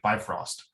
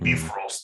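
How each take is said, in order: First: It is said in a plain English accent. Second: It is said in an exaggerated Nordic accent. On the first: "we'd be calling it Bifrost" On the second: "in this, you know, um, exaggerated Nordic accent"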